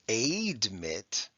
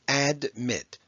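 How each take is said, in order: First: The first vowel is a long A sound. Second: The first vowel is a short A sound. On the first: The speaker calls it wrong. "It's not admit. Okay, that would be long" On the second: The speaker calls it right. "It's admit. The short A followed by a D"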